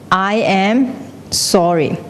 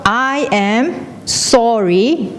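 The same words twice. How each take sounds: First: Slow echo, falling at the end; echo shouting back. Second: Mock shout. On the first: Acted. The world answers the apology, slow echo. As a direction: hand it back slowly and evenly. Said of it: "it will shout back". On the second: Someone on a cliff shouting an apology, drawn-out call. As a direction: call it out word by word, stretched. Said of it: "if you shout".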